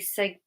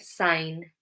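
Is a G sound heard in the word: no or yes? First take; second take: yes; no. First: The G sound is pronounced in the word. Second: The G is silent in the word. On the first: The speaker calls it wrong. "We don't say sig, or however you would say that" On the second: The speaker calls it right. "We don't pronounce the G"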